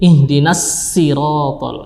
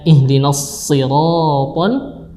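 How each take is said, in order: First: The s sound is thin and light. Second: The s sound is thick and heavy. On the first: The speaker calls it wrong. "diganti menjadi" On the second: The speaker calls it right.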